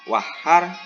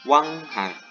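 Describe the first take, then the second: First: The n merges fully into the following h. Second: The n becomes a hidden nasal ng sound.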